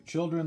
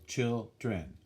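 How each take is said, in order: First: Said in the usual way. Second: Put-on "children" as two separate beats, chil-dren; split into syllables. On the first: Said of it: "the word children has two syllables". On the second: Shown as a demonstration. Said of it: "has two syllables".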